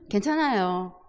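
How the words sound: It is said in a cheerful, pleased tone. The child is in a good mood. "좋을 때는"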